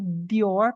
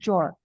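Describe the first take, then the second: First: The D and Y sounds stay separate. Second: The D and Y merge into a J sound. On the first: The speaker calls it wrong. "Não vai ficar dior" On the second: The speaker calls it right. "vai ficar jor"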